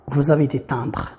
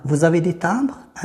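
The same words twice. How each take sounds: First: Said in the usual way. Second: "timbres" rising at the end, as a question; question intonation. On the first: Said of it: "أن الأولى كان خبر". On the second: Shown as a demonstration. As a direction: turn it into a question by lifting "timbres". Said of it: "غيرت فقط طريقة الصوت". (نبرة سؤال، مع رفع الصوت في "timbres")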